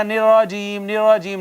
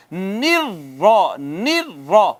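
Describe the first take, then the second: First: نراجیم with a light single ر; soft wrong reading. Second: نرا slow with a hard doubled ر; forceful doubled ra. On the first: Teacher shows the soft mistake, unstressed ر. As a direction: say نراجیم softly, no doubling on ر. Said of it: "یوں نرمی سے نہیں پڑھنا". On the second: Teacher shows the stressed doubled ر, slow and forceful. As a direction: hit the ر of نرا firmly. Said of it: "زور سے پڑھیں گے". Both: Shown as a demonstration.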